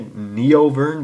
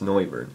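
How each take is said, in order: First: The first syllable sounds like 'nee-oh'. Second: The first syllable sounds like 'noy'. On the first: The speaker calls it wrong. "I always want to say Neovern, but that's not how you say it" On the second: The speaker calls it right. "It's Noivern"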